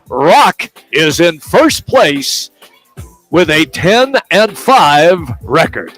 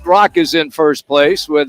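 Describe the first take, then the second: First: It is said in a put-on announcer voice. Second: It is said in a normal speaking voice.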